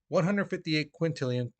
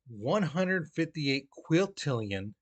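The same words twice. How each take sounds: First: The number is spoken quickly. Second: The number is spoken slowly. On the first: "I'll say it again, you know, fast" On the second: "I'll say it slow at first"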